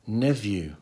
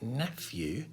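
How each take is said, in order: First: The middle consonant is a V sound. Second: The middle consonant is an F sound. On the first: "for some strange reason, people will pronounce the word nephew ... as neview" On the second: "P H being pronounced with an F sound"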